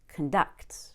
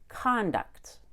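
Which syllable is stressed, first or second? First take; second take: second; first. First: The stress is on the second syllable. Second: The stress is on the first syllable. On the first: The word is used as a verb. "when I make this word a verb, that C O N is no longer con. It gets reduced to cun" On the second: The word is used as a noun. "when this word is a noun, it's pronounced conduct. And I make a big mouth on the C O N"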